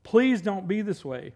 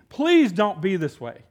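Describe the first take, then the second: First: Quieter repeat, slow; softer plea. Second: Pleading. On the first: Solomon begging the young man, soft pleading echo. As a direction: let the plea fall back gently. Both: Retold or imitated. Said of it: "Solomon pleading".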